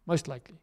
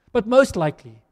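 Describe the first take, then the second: First: "most likely" dropped softer, a quiet echo of the line before; quieter repeat. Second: "most likely" said louder with a push on "most"; first take pushed out. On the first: Preacher conceding to the church, "most likely" repeated softer. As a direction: take it down and let "most likely" fall away softly. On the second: Preacher pressing his point to the church, "most likely" louder with "most" stressed. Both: Shown as a demonstration.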